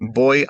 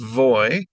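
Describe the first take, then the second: First: It starts with a hard B sound. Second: It starts with a soft English V sound. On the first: The speaker calls it right. "The V has a hard B in many or most Latin American countries" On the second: The speaker calls it wrong. "It's not like the English voy"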